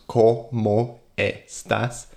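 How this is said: The vowels are short, pure Spanish vowels. The speaker calls it right. "instead of using those pure vowels"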